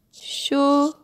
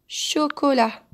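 First: "Chocolat" in three separated syllables, cho, co, la. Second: Said in the usual way. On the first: Shown as a demonstration. Teacher splitting a word for children, "Chocolat" syllable by syllable. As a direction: break "Chocolat" apart with long pauses between syllables. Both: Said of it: "nous avons la syllabe ko".

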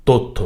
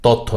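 First: তথ্য said "tottho", with a rounded o; correct o-like vowel. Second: তথ্য said "tawttho", with open aw; mistaken open vowel. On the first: Teacher correcting the error, "tottho". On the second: Teacher showing the error to avoid, "tawttho". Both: Shown as a demonstration. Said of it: "তথ্য না".

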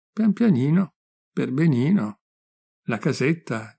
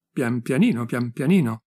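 First: Mocking echo. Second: Said in the usual way. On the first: Friend climbing behind Gigione parrots his diminutives, mocking echo. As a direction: parrot his dainty little words back at him. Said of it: "tu mi parli anche in diminutivi".

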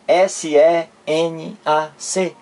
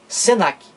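First: S E N A C as separate letter names, slowly; spelled letter by letter. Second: Senac run together as two syllables, se-NAC; read as one word. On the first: Teacher showing the wrong reading of the acronym, spelled out. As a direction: spell out S E N A C, one letter at a time. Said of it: "cada letra dessa separadamente, eu digo assim". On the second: Teacher giving the correct reading, pronounced as one word. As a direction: say senac as a word, not as letters. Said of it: "eu pronuncio senac". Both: Shown as a demonstration.

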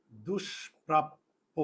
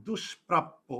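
First: "দুষ্প্রাপ্য" very slow and softer, with pauses between syllables; broken into syllables. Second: Said in the usual way. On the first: Shown as a demonstration. Teacher dictates an example word to students, slowly broken into syllables. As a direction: draw out "দুষ্প্রাপ্য" piece by piece, lower and softer. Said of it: "এই যে স এর আগে দু". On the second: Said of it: "আমি যদি এখন এখানে উদাহরণ দিই".

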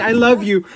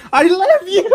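First: Said in the usual way. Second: High, loud wail breaking into laughter; wailed declaration. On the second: Real, not acted. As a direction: wail it out and crack up.

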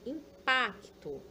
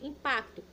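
First: Impacto slowed as im-pac-to; slow syllable-split impacto. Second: Said in the usual way. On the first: Shown as a demonstration. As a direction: stretch impacto out, sounding each syllable.

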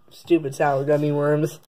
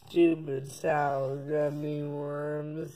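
First: Said in the usual way. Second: Slow, hushed and distant; slow soft flashback. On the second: Shown as a demonstration. Kid replaying his own words as a flashback, slow and hushed. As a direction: replay it softly like a fading memory. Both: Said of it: "Rewind the clip".

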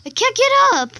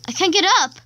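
First: Much higher, louder stuck wail; desperate shout. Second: Frustrated cry. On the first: Kid stuck in lava, desperate loud wail. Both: Real, not acted.

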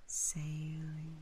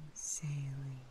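Both takes have the same delivery.

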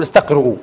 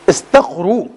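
First: استقرؤوا with a glottal stop, istaqri'u; wrong pronunciation. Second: استقروا said plainly as istaqru, no hamza; correct pronunciation. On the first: Teacher shows students the form to avoid, استقرؤوا with hamza. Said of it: "لا تقول". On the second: Teacher shows students the right form, استقروا as istaqru. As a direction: say استقروا short and clean, istaqru. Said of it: "لا تقول استقرؤوا". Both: Shown as a demonstration.

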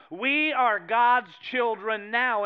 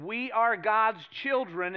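First: Slow, louder, landing on "now"; stress on now. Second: "are" drawn out slow and weighted; stress on are. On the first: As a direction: drive the line home on "now". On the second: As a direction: lean hard on "are". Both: Shown as a demonstration. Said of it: "And notice the emphasis".

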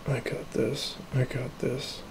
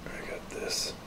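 First: Said in the usual way. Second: Whisper. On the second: Real, not acted.

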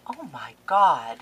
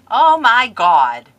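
First: Said in the usual way. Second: Excited. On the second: Real, not acted. Opening gifts, loud outburst.

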